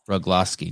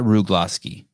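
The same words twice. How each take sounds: First: The first syllable sounds like the word rug. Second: The first syllable does not sound like rug. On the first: The speaker calls it right. "Like rug" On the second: The speaker calls it wrong. "Not Rugloski"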